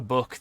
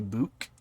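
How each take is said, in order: First: The vowel is short, as in standard English. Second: The vowel is a long oo, Newcastle style.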